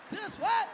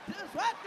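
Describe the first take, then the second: No difference in how they are said.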